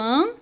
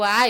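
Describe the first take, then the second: First: The vowel is nasalized. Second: The vowel is plain and oral. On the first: The speaker calls it right. "eu apenas nasalizo o som do A" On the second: The speaker calls it wrong. "eu não falo A"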